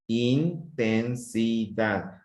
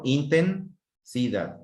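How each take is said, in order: First: "Intensidad" slowly split as in, ten, si, dad; syllable by syllable. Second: "intensidad" split as inten, sidad; two-chunk split. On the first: Teacher showing correct short splits, slow four-beat syllables. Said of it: "la separación de las letras". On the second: Teacher showing pupils a wrong split, two big chunks. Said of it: "Porque si yo digo intensidad, no". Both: Shown as a demonstration.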